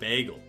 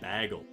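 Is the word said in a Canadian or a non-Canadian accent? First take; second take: non-Canadian; Canadian. First: It is said in a non-Canadian accent. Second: It is said in a Canadian accent.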